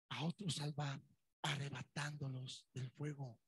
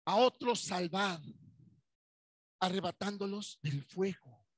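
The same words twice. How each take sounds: First: Hushed scripture echo; soft repeat. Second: Slow, loud scripture reading; weighty pulpit reading; solemn proclamation. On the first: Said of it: "repeated quietly". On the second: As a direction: proclaim the verse slowly and loud. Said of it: "verse read with weight, then repeated". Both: Shown as a demonstration.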